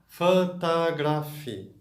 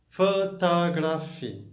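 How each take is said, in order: Both takes have the same delivery.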